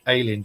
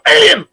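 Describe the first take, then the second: First: It is said flatly, in passing. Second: It is said dramatically, with emphasis.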